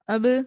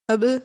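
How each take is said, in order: The two takes are said the same way.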